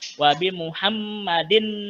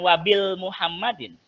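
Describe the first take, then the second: First: It is said without an L before muhammadin. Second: It is said with an L before muhammadin. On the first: The speaker calls it right. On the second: The speaker calls it wrong.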